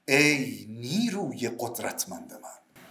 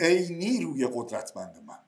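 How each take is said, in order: First: The word قدرتمند carries strong stress. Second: It is said flat with no word stressed. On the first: The speaker calls it right. "من یه آکسان میخوام الان روی قدرتمند" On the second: The speaker calls it wrong. "من آکسان نمیشنوم، کسی آکسان رو هیچی نمیگذاره. میگید"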